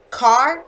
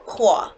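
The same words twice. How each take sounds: First: Said in the usual way. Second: Qua as Boston car, no r, open ah; Boston accent car. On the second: Shown as a demonstration. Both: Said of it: "Kind of mixed up".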